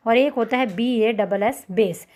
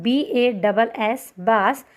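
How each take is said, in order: First: Slow spelled demo ending on बेस; spelled, then said base. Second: Letter by letter then बास, slow and clear; spelled, then said bass. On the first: Teacher to students contrasting bass with बेस, slowly. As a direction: spell बी ए डबल एस, then say बेस with a long 'e' like the music beat. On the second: Teacher to students spelling the fish word, slow and clear. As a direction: spell out बी ए डबल एस slowly, then say बास with a short open 'a' like the fish. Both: Shown as a demonstration. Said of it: "pronunciation बेस और बास".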